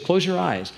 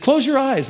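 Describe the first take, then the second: First: Said in the usual way. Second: Much higher, firmer repeat; a little girl insisting; insisting child. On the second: Retold or imitated. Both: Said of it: "She said".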